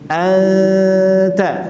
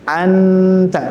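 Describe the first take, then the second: First: The n is only a nasal hum, tongue apart. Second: The n is fully articulated with the tongue. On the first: The speaker calls it right. "Tapi kalau ifa tidak langsung ke nun, direnggangkan. ... Nah, itu ikhfa" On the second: The speaker calls it wrong. "makanya jangan dibaca anta, tapi eh, jangan ditempelkan ke makhrajnya"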